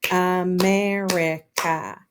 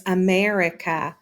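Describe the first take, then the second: First: "America" slowly as A-mer-i-ca; syllable by syllable. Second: Said in the usual way. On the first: Shown as a demonstration. Teacher counting four syllables, America slowly broken apart. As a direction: stretch "America" into four even beats. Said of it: "that actually has four syllables".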